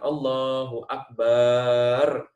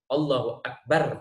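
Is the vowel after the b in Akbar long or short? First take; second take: long; short. First: The vowel after b in Akbar is long. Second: The vowel after b in Akbar is short. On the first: The speaker calls it wrong. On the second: The speaker calls it right.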